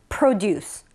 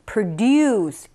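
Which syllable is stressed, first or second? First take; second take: first; second. First: The stress is on the first syllable. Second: The stress is on the second syllable. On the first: The speaker calls it right. "앞에 강세가 있어요" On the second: The speaker calls it wrong. "produce 이런 느낌보다는"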